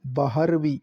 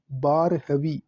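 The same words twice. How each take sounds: First: बारहवीं said as "baahar-vi"; "BAA-har-vi" for बारहवीं; first pronunciation variant. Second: बारहवीं said as "baar-ha-vi"; careful "BAAR-ha-vi" for बारहवीं; second pronunciation variant. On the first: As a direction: put the h before the r in बारहवीं. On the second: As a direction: put the h after the r in बारहवीं. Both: Shown as a demonstration. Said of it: "वी पर अनुस्वार आएगा".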